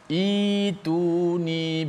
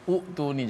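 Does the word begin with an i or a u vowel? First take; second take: i; u. First: It begins with an i vowel. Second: It begins with a u vowel. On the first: The speaker calls it right. "kita baca ituni bikitabim" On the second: The speaker calls it wrong. "jangan baca utuni"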